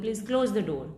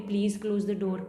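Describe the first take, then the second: First: It sounds like a firm order. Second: It sounds like a polite request.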